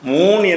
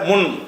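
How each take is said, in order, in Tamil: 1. உயிரெழுத்து நீட்டி ஒலிக்கப்படுகிறது. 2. உயிரெழுத்து குறுகி ஒலிக்கப்படுகிறது. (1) "மூன் இப்படி அரபியில் சொல்லக்கூடாது" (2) "முன் என்றதை சொல்லணும்"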